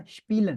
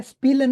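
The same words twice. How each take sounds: First: स्पीलन with a sh sound, shpeelen; correct German pronunciation. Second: स्पीलन with a plain s sound, s-peelen; wrong pronunciation. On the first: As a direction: say स्पीलन starting with sh, the right way. (स्पीलन को श से बोलें, शपीलन) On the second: (स्पीलन को स से बोलें, गलत तरीका) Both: Shown as a demonstration. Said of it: "स्पीलन नहीं पढ़ना".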